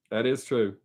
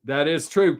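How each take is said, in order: First: That is true murmured lower and softer, an afterthought; quiet echo. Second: Said in the usual way. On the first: Real, not acted. Agreeing with Keith again, softer and lower, to himself. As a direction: repeat That is true quietly to yourself. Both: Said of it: "That is true, Keith".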